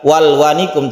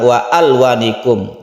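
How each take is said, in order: First: The 'a' after wa is dropped and linked. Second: The 'a' after wa is pronounced separately. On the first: The speaker calls it wrong. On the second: The speaker calls it right. "hamzah asli yang meskipun wasol ini tetap dibaca"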